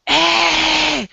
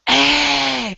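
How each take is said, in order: No difference in how they are said.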